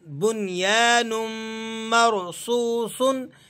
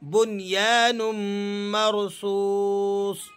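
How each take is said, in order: First: The last word ends with a final -un sound. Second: The last word ends abruptly on a bare s. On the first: The reading continues without a stop. "हमने इसको पढ़ना है सौद दो पेश सुन" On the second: The reading stops at this word. "जब हम इसको silent mode में पढ़ेंगे"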